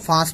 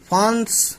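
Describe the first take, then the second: First: The vowel is nasalized with no full n. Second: A full n consonant is pronounced. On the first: The speaker calls it right. "हम फांस पढ़ेंगे ... तो ये नून गुन्ना है" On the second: The speaker calls it wrong. "फांस ना पढ़कर"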